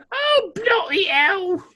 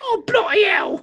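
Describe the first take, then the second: First: Slower, drawn-out mock British; British accent. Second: Put-on British accent. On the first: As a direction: stretch it out like a weary Englishman. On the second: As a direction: shout it like a stage Englishman. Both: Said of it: "when we use an accent".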